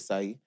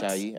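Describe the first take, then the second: First: It starts with a plain s sound. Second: It starts with a sh sound.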